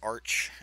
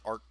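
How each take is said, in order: First: The word ends with a ch sound. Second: The word ends with a hard k sound. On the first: The speaker calls it right. "I get it. It's arch" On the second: The speaker calls it wrong. "It's not an arc"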